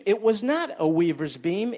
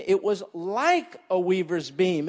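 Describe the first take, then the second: First: NOT pushed up with a rise; stress on not. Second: LIKE leaned on, falling tune; stress on like. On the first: Correcting the congregation's reading, rising on NOT. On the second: Preacher explaining the verse, weight on LIKE. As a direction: press the word like to make the point. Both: Shown as a demonstration.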